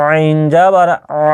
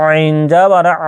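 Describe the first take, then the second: No difference in how they are said.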